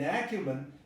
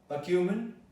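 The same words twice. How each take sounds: First: The stress is on the first syllable. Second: The stress is on the second syllable. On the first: "If the stress had been acumen, it would have been an ad" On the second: "If the stress falls on cumen"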